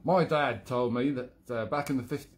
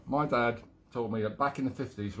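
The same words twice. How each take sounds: First: London character slipping into Australian; accidental Australian accent. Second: Corrected retake in mild Cockney; attempted London accent. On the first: Acted. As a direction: attempt London, drift into Australian. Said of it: "oh God, I've gone Australian again". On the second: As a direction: do a rough London accent, badly faked. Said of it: "London, mate, London".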